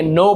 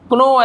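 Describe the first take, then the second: First: नो starting straight on n; सही उच्चारण. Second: कनो with the K pronounced; गलत उच्चारण. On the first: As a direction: say नो with a silent K. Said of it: "नो पढ़ेंगे". (नो, क को छोड़कर) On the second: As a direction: misread "know" as कनो. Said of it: "ऐसे नहीं पढ़ेंगे". (कनो, शुरू में क बोलकर) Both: Shown as a demonstration.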